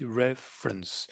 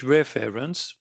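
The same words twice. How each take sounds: First: Slow "reference" as REF-runce, middle swallowed; schwa, reduced ending. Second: "reference" as three full equal syllables, ref-fair-ence; French-style mispronunciation. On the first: Teacher models the correct English, "reference" reduced to REF-runce. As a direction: chew the end of "reference" down to a schwa. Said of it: "mâchée qui fait juste un petit E". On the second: Teacher shows learners the wrong way, "reference" with every syllable full. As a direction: sound out every vowel of "reference". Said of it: "Si vous dites reference, l'interlocuteur comprend rien".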